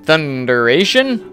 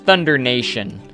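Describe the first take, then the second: First: No extra n sound comes before 'ation'. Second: An extra n sound comes before 'ation'. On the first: This is the ride's actual name. The speaker calls it right. "You mean Thunderation?" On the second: This is how visitors mistakenly say the name. The speaker calls it wrong. "They always call it Thunder Nation"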